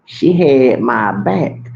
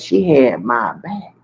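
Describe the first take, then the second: First: "She had my back" drawn out slowly, each word weighted; slow, pointed restatement of "She had my back"; slow emphatic repeat. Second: Said in the usual way. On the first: Real, not acted.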